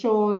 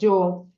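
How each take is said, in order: First: It is said with an Argentine accent. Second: It is said with a Mexican accent. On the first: "na Argentina eles vão dizer yo" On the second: "no México eles vão dizer yo"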